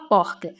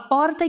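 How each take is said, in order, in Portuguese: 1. 'Porta' é falada com sotaque carioca. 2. 'Porta' é falada com sotaque paulista. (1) "quem tá no Rio fala porca" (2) "Quem tá em São Paulo fala porta"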